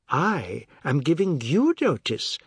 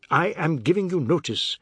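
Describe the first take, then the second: First: "I" and "you" drawn out, slow and higher; slow retort, "I" and "you" stretched; emphatic counter. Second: Higher-pitched, firm declaration; wounded but insistent; insistent repeat. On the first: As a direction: turn it back, leaning on "I" and "you". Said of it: "Missus Tulsi said". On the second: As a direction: repeat it doggedly, word by word. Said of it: "he repeated at last". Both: A narrator's reading.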